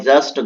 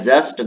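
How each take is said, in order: No difference in how they are said.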